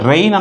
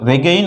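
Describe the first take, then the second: First: The word has no g sound. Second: The word has a g sound. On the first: The speaker calls it right. "రెయిన్ అనాలి" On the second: The speaker calls it wrong. "రెగైన్ అనకూడదు"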